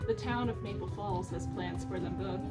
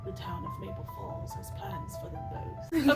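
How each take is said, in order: First: It is read in a plain, neutral tone. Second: It is read in an ominous, spooky tone.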